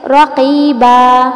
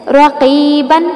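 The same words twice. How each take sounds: First: رقیبا ending in a long held aa; رقیبا held long at the stop; pause with long alif. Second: رقیباً with the nunation an; رقیباً recited with tanween. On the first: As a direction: stretch the final aa of رقیبا. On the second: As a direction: Quranic recitation of رقیباً ending in an. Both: Shown as a demonstration. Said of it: "اس کو وقف میں پڑھیں گے".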